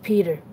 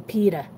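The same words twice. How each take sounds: First: It is said in a neutral accent. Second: It is said in a strong Boston accent.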